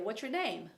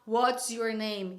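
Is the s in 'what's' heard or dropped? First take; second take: dropped; heard. First: The s of 'what's' is dropped. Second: The s of 'what's' is heard. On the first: "nem o S" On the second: "algumas pessoas vão falar"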